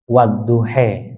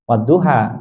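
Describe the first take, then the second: First: The final vowel is an 'e' sound. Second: The final vowel is an open 'a' sound. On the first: "dibaca imalah gitu ya, dibaca seperti kita mengatakan sate" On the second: "bukan Wadduha"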